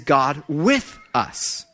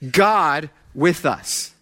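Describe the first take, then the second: First: The stress is on with. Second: The stress is on God.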